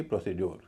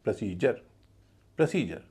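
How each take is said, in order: First: प्रोसीड्योर with full "pro" and "dyor"; rounded o, hard d and "yor" ending in प्रोसीड्योर; wrong pronunciation. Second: प्रोसीजर as "prə-SEE-jər"; light प्र, long stressed सी, ज for d in प्रोसीजर; correct pronunciation. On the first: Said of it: "न कि". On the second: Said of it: "पूरे शब्द का उच्चारण होगा". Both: Shown as a demonstration.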